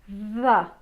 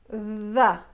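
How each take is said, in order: First: The th sound buzzes with voice. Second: The same.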